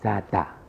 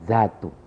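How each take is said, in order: First: The word ends with an a vowel. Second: The word ends with a u vowel. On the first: "dibaca dengan baris atas" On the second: "dibaca dengan baris hadapan"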